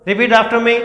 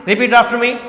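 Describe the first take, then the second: The two takes are said the same way.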